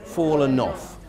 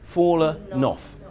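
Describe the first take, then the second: The two takes are said the same way.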